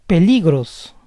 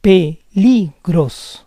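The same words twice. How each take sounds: First: Said in the usual way. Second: Peligros slowly split as pe-LI-gros; syllable by syllable. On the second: Shown as a demonstration. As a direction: say Peligros slowly in parts, stressing LI. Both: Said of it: "stress goes on the second to last".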